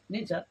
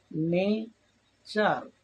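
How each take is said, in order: First: Said in the usual way. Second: নেচার very slowly, as নে, then চার; split into syllables. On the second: Shown as a demonstration. Teacher showing learners syllable division, নেচার slow and broken in two. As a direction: stretch both halves of নেচার, louder, with a gap. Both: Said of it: "syllable ভাগ করে করে উচ্চারণ".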